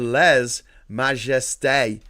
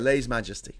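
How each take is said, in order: First: It is said with French vowels and final stress. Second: It is said with English vowels and early stress. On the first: "The French pronunciation, however, is closer to" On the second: "Let's just say Lay's Majesty"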